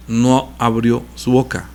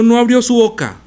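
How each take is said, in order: First: "no abrió su boca" said slow and lower, each word drawn out; slow hushed repeat. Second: "no abrió su boca" said higher and louder, proclaimed; raised reading. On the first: Preacher lingering over Jesus' silence for the congregation, slow and low. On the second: Preacher reading the verse aloud to his congregation, raised and emphatic. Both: Shown as a demonstration. Repeats verse, contrasting delivery.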